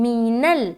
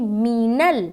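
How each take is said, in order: The two takes are said the same way.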